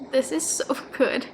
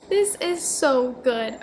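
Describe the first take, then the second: First: Laughing. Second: Slow, stressed "This is so good"; slow emphatic. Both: Real, not acted.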